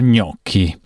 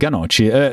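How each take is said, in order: First: The word begins directly with a gn sound. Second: A vowel is inserted between g and n. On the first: The speaker calls it right. "si dice ganoci per gnocchi" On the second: The speaker calls it wrong. "si dice ganoci per gnocchi"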